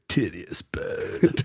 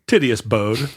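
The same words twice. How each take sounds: First: It is said in a put-on surfer voice. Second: It is said in an ordinary speaking voice.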